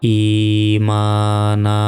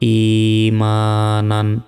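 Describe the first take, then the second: First: The word ends with a long a vowel. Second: The word ends with an n sound. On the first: The reader stops at this word. "দুই জবরে যদি আমরা থামি ওয়াকফ করি তাহলে এখানে একটি জবরের উচ্চারণ হবে না এবং এক সেকেন্ড টান হবে" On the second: The reading continues without stopping. "নুন আলিফ দুই জবর নান"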